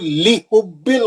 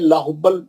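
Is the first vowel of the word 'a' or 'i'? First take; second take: i; a. First: The first syllable has the vowel 'i'. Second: The first syllable has the vowel 'a'. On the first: The speaker calls it right. "लाम पे ज़ेर है" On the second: The speaker calls it wrong. "ज़बर से याद है, ये ज़बर नहीं है"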